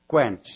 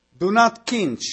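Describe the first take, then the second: First: "Quench" with a clear kw and short e; corrected pronunciation. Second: "quench" said like "kinch", vowel i, no w; hesitant non-native "quench" with an i sound; tentative "quench" as "kinch"; unsure English. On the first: Shown as a demonstration. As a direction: say "Quench" properly, kw-ench. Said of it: "te rog să mă corectezi". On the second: Real, not acted. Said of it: "nu știu dacă am pronunțat bine".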